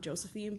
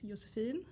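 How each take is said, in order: First: The name is said with an American pronunciation. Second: The name is said with a Swedish pronunciation. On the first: This is how people in America say it. "in America, people call me Josephine" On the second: This is the name's original form. "the pronunciation in Swedish is Josephine"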